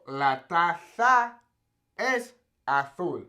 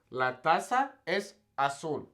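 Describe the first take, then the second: First: "La taza es azul" very slowly in Castilian Spanish, Z as a TH; Castilian Spanish: "taza" as tatha, "azul" as athul; Castilian Spanish lisp. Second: "La taza es azul" slowly, Z said as S; "taza" as tasa, "azul" as asul, no lisp; Latin American pronunciation. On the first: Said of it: "that kind of lisp". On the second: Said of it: "how I would say". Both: Shown as a demonstration.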